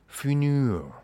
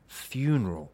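First: The first syllable sounds like 'fun'. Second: The first syllable sounds like 'fyoo'. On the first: The speaker calls it wrong. "not funeral" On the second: The speaker calls it right. "It's funeral"

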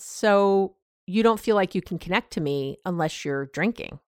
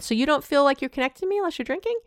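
First: It ends falling, like a statement. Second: It ends rising, like a question.

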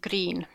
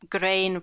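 First: The vowel sounds like the one in see. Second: The vowel sounds like the one in rain. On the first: This is how it is said today. "rather than green" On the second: This is how it was said in Middle English. "in Middle English, for example, the word green would have been pronounced grain"

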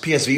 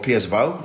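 First: The letters are said with English letter names. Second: The letters are said with Dutch letter names.

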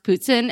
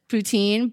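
First: The word is said with a Quebec French pronunciation. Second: The word is said with an American pronunciation. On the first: The speaker calls it right. "my friend who's from Quebec said it's pronounced poutine" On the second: The speaker calls it wrong. "in America we pronounce it poutine"

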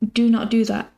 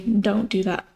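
First: The negative is said in full as do not. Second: The negative is contracted to don't.

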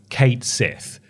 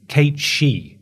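First: The name is pronounced in a non-Irish way. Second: The name is pronounced the Irish way. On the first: The speaker calls it wrong. "For the longest time, I thought it was Kate Sith. Apparently, that's not right" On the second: The speaker calls it right. "If you're pronouncing it the Irish way"

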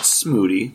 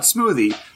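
First: The middle consonant is a plain 't' sound. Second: The middle consonant is a 'th' sound. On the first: The speaker calls it right. "There's no H in it" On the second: The speaker calls it wrong. "not smoothie"

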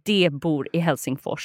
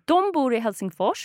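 First: The first word is pronounced de. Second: The first word is pronounced dom. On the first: It sounds like speech from the 1800s. The speaker calls it wrong. "you would probably think that it says de bor I Helsingfors" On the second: It sounds like normal present-day speech. The speaker calls it right.

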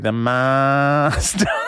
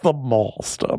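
First: It is said in a drawn-out Australian accent. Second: It is said in a posh RP accent. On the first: "if it was an Australian doctor... Really drag it out" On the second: "because it was very, you know, RP, received pronunciation"

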